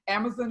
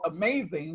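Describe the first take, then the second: First: The name does not sound like amazing. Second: The name sounds like the word amazing. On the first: The speaker calls it right. "It's Amazon" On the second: The speaker calls it wrong. "who I called Amazing"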